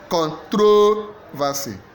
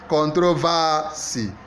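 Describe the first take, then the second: First: The stress is on the second syllable. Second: The stress is on the third syllable. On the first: "Second syllable" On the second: "Third syllable"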